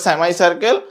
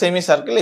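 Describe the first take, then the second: First: It is said with an American accent. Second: It is said with a British accent. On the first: "আমেরিকানরা বলে" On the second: "ব্রিটিশরা বলে"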